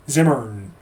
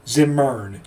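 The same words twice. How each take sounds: The two takes are said the same way.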